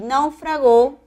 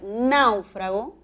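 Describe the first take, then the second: First: The stress is on the last syllable. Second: The stress is on the first syllable. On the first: It is a past-tense verb. "es una palabra aguda, debe llevar tilde en la O" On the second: It is a noun. "náufrago con tilde, esdrújula"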